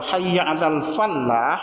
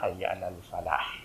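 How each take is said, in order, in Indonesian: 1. Huruf l pada kata terakhir dibaca ganda. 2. Huruf l pada kata terakhir dibaca tunggal. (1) "al-fallah itu artinya petani" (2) "Kalau al-falah artinya keberuntungan"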